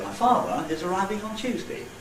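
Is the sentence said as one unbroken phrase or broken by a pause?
broken. It is split into two phrases by a break. "I could put a word group boundary there"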